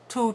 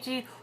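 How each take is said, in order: First: The tongue is lower and lips are rounded. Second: The tongue is high and lips are unrounded. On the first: The speaker calls it right. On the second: The speaker calls it wrong.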